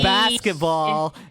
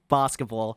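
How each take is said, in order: First: It is said in an American accent. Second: It is said in a non-American accent.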